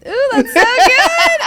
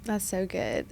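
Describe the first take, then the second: First: High, slow and laughing; laughing delight. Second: Said in the usual way. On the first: Real, not acted. Host delighted by her guest's words, laughing as she praises them. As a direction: savour it with a laugh.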